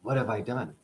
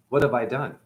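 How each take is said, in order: First: Much softer, almost to himself; quieter hushed repeat. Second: Hushed regret. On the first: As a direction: let the second one fade nearly to nothing. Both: Retold or imitated. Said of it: "Shiva goes".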